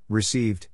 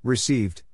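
Both takes have the same delivery.

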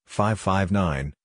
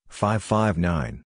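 No difference in how they are said.

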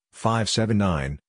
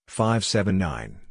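No difference in how they are said.

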